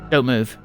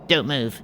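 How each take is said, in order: First: It is said mildly, without sharpness. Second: It is said sharply, in a harsh voice.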